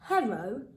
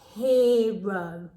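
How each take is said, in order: First: The first vowel sounds like 'er'. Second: The first vowel sounds like 'ear'. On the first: The speaker calls it wrong. "that doesn't sound like a real word. We don't pronounce it like that" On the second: The speaker calls it right. "We pronounce it hero. So you've got to imagine that E and R is making ear"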